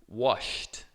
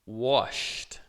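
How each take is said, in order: First: The ending is a short T sound. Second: The same.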